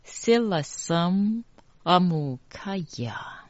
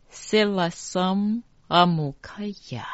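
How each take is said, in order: First: Whispered. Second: Said in the usual way. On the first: Shown as a demonstration. Teacher whispers the mantra line as a repeat demo. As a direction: whisper 塞拉森阿姆卡亚 for the students to catch each syllable. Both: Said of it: "再一次".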